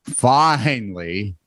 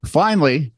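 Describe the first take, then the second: First: "finally" drawn out very slowly; stretched "finally". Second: Said in the usual way. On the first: Pretend. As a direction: drag out each syllable of "finally". Repeats word, comically stretched.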